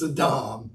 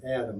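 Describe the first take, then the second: First: The stress is on the last syllable. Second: The stress is on the first syllable. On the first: The speaker calls it right. "almost always the accent's on the last syllable" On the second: The speaker calls it wrong. "I know you thought his name was Adam"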